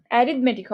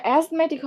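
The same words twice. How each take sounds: First: অ্যারিথমেটিক said as "a-rith-metic", with the r sounded; corrected pronunciation. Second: অ্যাজমেটিক said as "az-metic", with a z sound; mistaken pronunciation. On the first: Teacher correcting the word for students, অ্যারিথমেটিক said "a-rith-metic". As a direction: say অ্যারিথমেটিক with the full "rith" syllable. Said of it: "অ্যারিথমেটিক হবে". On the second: Teacher rejecting a mistaken word, অ্যাজমেটিক said "az-metic". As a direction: say অ্যাজমেটিক without the "rith" syllable. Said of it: "অ্যাজমেটিক হবে না". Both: Shown as a demonstration.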